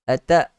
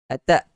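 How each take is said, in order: Both takes have the same delivery.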